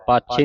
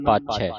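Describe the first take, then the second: First: ਪਾਛੇ ending in narrow "e"; ਪਾਛੇ with a single-lavan ending; wrong reading. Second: ਪਾਛੈ ending in open "ai"; ਪਾਛੈ with the double-lavan vowel; correct reading. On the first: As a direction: say ਪਾਛੇ as "paachhe". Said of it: "ਨਹੀਂ ਪੜ੍ਹਨਾ". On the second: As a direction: say ਪਾਛੈ as "paachhai", falling. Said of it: "ਦਲਾਵਾਂ ਧਿਆਨ ਰੱਖਣਾ". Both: Shown as a demonstration.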